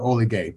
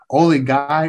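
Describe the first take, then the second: First: The last syllable sounds like 'gay'. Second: The last syllable sounds like 'guy'. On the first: "you can pronounce it two ways" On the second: "you can pronounce it two ways"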